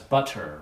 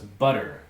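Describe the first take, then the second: First: The middle consonant is a crisp T sound. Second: The middle consonant is a soft D-like sound. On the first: This is what the listener's mind fills in. "you heard that as butter" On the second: This is what is actually pronounced. "what I said was butter"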